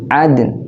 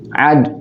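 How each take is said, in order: First: The word ends with a light n sound. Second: The word ends without any n sound. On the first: The speaker calls it right. "harus ada huruf nunnya juga walaupun sedikit" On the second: The speaker calls it wrong. "Enggak boleh"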